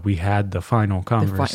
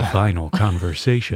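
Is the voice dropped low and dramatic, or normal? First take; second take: normal; dropped low. First: The voice stays at its normal pitch. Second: The voice drops low and sounds dramatic.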